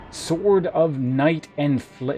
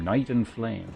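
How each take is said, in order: First: Slow, grand title reading; epic name announcement. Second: Said in the usual way. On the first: Pretend. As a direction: draw out the weapon's name majestically. Dramatic reading of weapon name.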